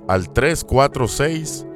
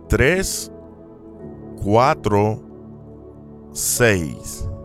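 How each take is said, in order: First: The digits are said at normal speed. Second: The digits are said slowly, one by one.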